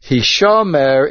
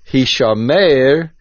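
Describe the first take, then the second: First: "Hishomer" stressed on the middle syllable, hi-SHO-mer; mil'el stress. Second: "Hishomer" stressed on the last syllable, hi-sho-MEIR; milra with tzere. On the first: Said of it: "the word is Hishomer Mil'el". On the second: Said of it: "with a tzere and pronouncing it Milra". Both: Shown as a demonstration.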